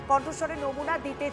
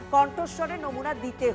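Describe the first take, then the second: No difference in how they are said.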